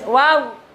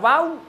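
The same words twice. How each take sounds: First: The word ends with the lips spread, not rounded. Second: The word ends with the lips pushed forward, rounded. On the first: The speaker calls it right. "Tapi biasa meringis" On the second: The speaker calls it wrong. "Jadi nggak mencucu loh ya, nggak wow"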